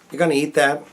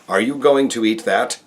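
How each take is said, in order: First: Words are reduced and run together casually. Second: Every word is said fully and carefully. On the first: "we speak just like those around us in a day-to-day parlance" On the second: "American Standard or Broadcast Standard"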